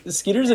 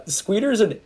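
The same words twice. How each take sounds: First: Said in the usual way. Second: "Skeeter's" slipped into "Squeeter's"; slip of the tongue. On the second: Real, not acted. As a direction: say "Skeeter's" with an extra w after the k, SKWEE-ter's.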